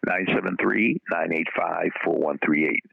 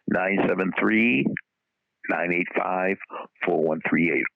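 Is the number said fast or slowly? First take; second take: fast; slowly. First: The number is said quickly. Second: The number is said more slowly.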